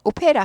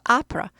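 First: It starts with an 'oh' sound, Korean style. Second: It starts with an 'ah' sound, English style. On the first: The speaker calls it wrong. "오페라 하지 않고" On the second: The speaker calls it right. "아프라 하우스"

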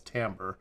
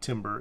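First: The word begins with 'tam', like 'tamber'. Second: The word begins with 'tim', like 'timber'. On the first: The speaker calls it right. "It's timbre" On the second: The speaker calls it wrong. "It's not timbre"

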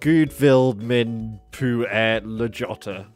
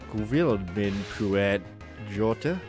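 First: It is loud and exaggerated, with English sounds. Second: It is calmer, trying for Icelandic sounds. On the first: The speaker calls it wrong. "I really Englished that up. No attempt to make it sound Icelandic" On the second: The speaker calls it right. "Something like that, yeah?"

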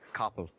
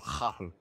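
First: It starts with a hard k stop. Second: It starts with a rough throaty friction sound.

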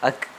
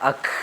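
First: The final consonant sound is cut short. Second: The final consonant sound is drawn out. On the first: The speaker calls it right. "അങ്ങനെ പറഞ്ഞ് ശബ്ദം നീളാതെ പിടിച്ചു വെക്കണം" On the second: The speaker calls it wrong. "അല്ലാതെ അക് എന്ന് പറയരുത്"

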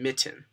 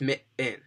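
First: The middle T is said as a clear T sound. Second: The middle T is said as a glottal catch. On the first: This is how people from elsewhere, like Boston, say it. "rather than mitten, mitten, which is a stop" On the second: This is how people from the Philadelphia area say it. "So it's mit-in, mit-in, rather than mitten"

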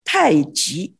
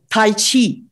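First: It is said the pinyin way. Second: It is said the older, non-pinyin way. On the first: "now according to pinyin, it should be said Tai Chi" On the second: "instead of"

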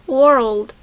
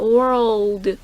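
First: The word is said at normal speed. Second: The word is said slowly.

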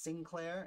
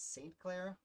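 First: The name begins with the sound 'sin'. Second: The name begins with the sound 'saint'. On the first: The speaker calls it wrong. "he pronounced Sinclair" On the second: The speaker calls it right. "it's Saint Clair"

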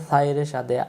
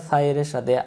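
The two takes are said the same way.

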